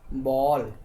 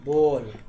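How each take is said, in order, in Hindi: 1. स्वर 'aa' और 'o' के बीच में पड़ता है। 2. स्वर एक साफ़ गोल 'o' जैसा है। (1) "इसको ये दोनों के बीच में बोलते हैं, ना तो बा ना तो बॉल" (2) "फिर कोई बच्चे लोग ऐसा पढ़ता है बॉल"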